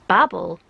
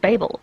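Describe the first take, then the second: First: The name sounds like the word 'babble'. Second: The name does not sound like 'babble'. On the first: This fits the scholars' nickname. "calling them babblers implies that you're supposed to pronounce it Babel" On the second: This is how people in that setting would say it. "it's definitely Babel. Like they would say Babel"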